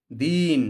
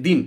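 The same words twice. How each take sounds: First: "দিন" with the i held long; teacher contrasting two words for students, drawn-out "দিন"; long vowel. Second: "দিন" with a short, quick i; short vowel. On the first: Teacher says one of two words, long i in "দিন". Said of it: "একটা বলতেছি". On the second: Teacher says the other word, short i in "দিন". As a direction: keep the i in "দিন" brief. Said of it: "আর একটা বলতেছি". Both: Shown as a demonstration.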